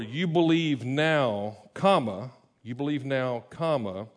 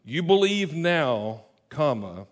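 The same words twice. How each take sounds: First: Slow, falling statement reading of "You believe now, comma, you believe now, comma"; "You believe now" said flat and final, with "comma" voiced as a pause. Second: Firm statement on "You believe now", then a clipped "comma"; statement reading. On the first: Pastor showing the congregation the verse read as a statement, slow and falling. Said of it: "should read more". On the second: Pastor reading Jesus' words as a statement, loud and slow. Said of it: "imagine Jesus saying this". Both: Shown as a demonstration.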